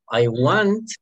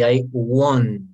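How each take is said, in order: First: "want" with an open ah vowel; pronunciation of want. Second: "want" said slowly as won't, rounded o; pronunciation of won't. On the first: Teacher showing querer's word, "want" with an open vowel. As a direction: say "want" as wahnt, meaning the verb to want. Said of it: "de querer". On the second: Teacher drilling pronunciation, "want" said slowly like won't. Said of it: "Hagamos bien la pronunciación de want". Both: Shown as a demonstration.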